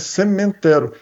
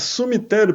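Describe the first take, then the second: First: The word starts with a sound like 'cimento'. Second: The word starts with a sound like 'some'. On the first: Graves are made of cement. "Os trumbos são feitos de cimento, então é cemitério" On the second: Whoever goes there disappears. "porque quem vai para lá some"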